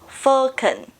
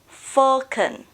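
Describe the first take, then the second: First: British accent, first vowel an 'o' sound. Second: British accent, first vowel an 'o' sound.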